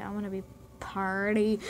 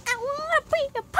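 First: Said in the usual way. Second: Very high, louder, rushed squeal; silly squeal. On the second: Retold or imitated. Vlogger mocking unresponsive viewers, silly squeal. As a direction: squeal it like a cartoon outburst.

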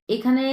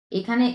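No difference in how they are said.

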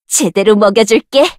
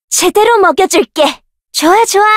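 First: Said in the usual way. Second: Higher eager taunt. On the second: Acted. Fighter eagerly taunting a foe, higher. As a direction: stress on 제대로, pitched up and falling.

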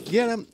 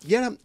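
Both takes have the same delivery.

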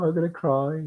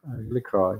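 First: High whiny pretend wail, about to cry; playful fake distress while lost in the game; mock near tears. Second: Said in the usual way. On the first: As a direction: whimper it like you might burst into tears, half joking.

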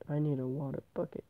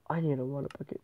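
The two takes are said the same way.

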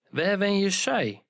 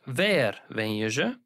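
First: Emphatic zij at the end; stressed zij. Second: Ze said light and quick at the end; plain question with weak ze; unstressed ze. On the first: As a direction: lean hard on zij. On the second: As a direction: let ze slip by weakly. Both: Shown as a demonstration. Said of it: "The same applies to zij and ze".

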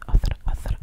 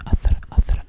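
The two takes are said the same way.

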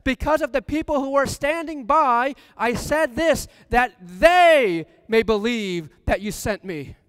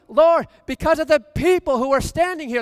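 First: High, loud prayer, ending slow; fervent prayer. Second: High, loud prayer, leaning on the people; fervent prayer. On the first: Preacher voicing Jesus praying at the tomb, loud and fervent. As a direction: pray it over the crowd. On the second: Preacher voicing Jesus praying aloud, loud and fervent. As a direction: cry it out to the Father. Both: Acted.

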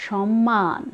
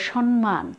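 First: সম্মান with a long double m, as shom-maan; correct pronunciation. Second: সম্মান with n before the m, as shon-man; mispronounced. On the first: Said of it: "সঠিক উচ্চারণ". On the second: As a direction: put an n in place of the first m of সম্মান: shon-man. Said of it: "এই উচ্চারণটাও তোমাদের ভুল হয়". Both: Shown as a demonstration.

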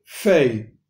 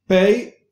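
First: "fei" starting on a soft f. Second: "Pei" with a firm p stop, higher; hard P in Pei. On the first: Teacher shows a letter without dogesh, soft F. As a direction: let air flow into "fei", no stop. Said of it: "son más débiles". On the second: Teacher shows a letter with dogesh, hard P. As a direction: pop the p of "Pei". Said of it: "son más fuertes". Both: Shown as a demonstration.

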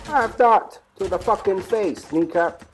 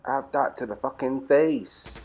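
First: Higher, louder and slow, savouring the kill; gloating shout. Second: Slow, steady taunt at normal loudness; slow gloat. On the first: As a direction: yell it at the enemy you just shot. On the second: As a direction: savour it slowly without shouting. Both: Real, not acted. Gloating over a game kill.

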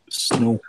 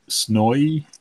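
First: "snow" drawn out with a plain oh vowel; British "snow". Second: "snowy" drawn out with a gliding Aussie vowel. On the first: Reading chat's Aussie-versus-Brit example, "snow" said the British way. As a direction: say "snow" slowly, British way, with no oy ending. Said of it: "and Brit says snow". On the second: Reading chat's Aussie-versus-Brit example, "snowy" said the Aussie way. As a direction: stretch "snowy" slowly, ending in an oy-like glide. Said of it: "Aussie says snowy". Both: Shown as a demonstration.

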